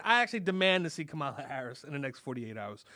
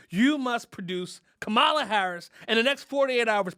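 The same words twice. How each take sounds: First: Said in the usual way. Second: Louder, higher demand, each word pressed; forceful demand. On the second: Acted. Comic to President Biden, forceful louder ultimatum. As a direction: lay down an ultimatum.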